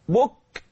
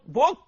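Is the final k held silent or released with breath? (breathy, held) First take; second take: breathy; held. First: The final k is released with audible breath. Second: The final k is closed without releasing breath. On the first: "أعمل جريان للنفس" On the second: "لسه حبسه"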